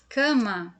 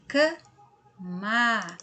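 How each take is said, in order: First: Said in the usual way. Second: "cama" slow, split into ca and ma; syllable by syllable. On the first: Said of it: "Se nós falamos separadinho". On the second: Shown as a demonstration. Teacher forming the word from C and A, syllables held apart. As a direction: hold "ca", pause, then a long "ma". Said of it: "É o C com A".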